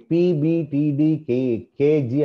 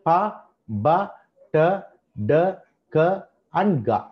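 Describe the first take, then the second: First: పి, బి, టి, డి, కే, జి said as English letter names, pee bee tee; wrong letter names. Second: ప, బ, ట, డ, క, గ as short crisp consonant sounds with a light a; correct plosive sounds. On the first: Teacher showing students the wrong way to name plosives, as letter names. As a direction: read them out as alphabet names, the way not to say them. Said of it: "అని అనకూడదు". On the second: Teacher showing students the right way to sound the plosives, short and crisp. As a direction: pop each sound out cleanly, one by one. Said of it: "ఏం, ఎలా పలకాలి?".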